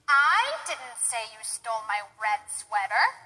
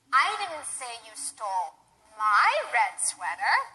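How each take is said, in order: First: The word "I" carries the stress. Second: The word "my" carries the stress. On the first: Someone else said it. "Maybe somebody else said that you stole the red sweater, and I didn't say it" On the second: The sweater stolen belonged to someone else. "perhaps I said you stole someone else's red sweater"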